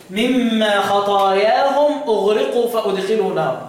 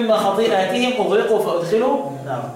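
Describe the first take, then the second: First: خطاياهم recited as khatayahum, no hamza; خطاياهم the Abu Amr way, measured recitation; Abu Amr's reading. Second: خطيئاتهم recited as khati'atihim with hamza; خطيئاتهم with a clear glottal stop; the other readers. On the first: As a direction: recite خطاياهم with long alif, khata-ya-hum. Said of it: "أبو عمرو". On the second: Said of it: "والباقي يقول". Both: Shown as a demonstration.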